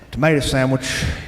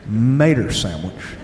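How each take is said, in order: First: Every sound of both words is fully pronounced. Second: Tomato becomes mater, sandwich is said fully. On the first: "is not pronounced that way" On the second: "the O is replaced with an E R"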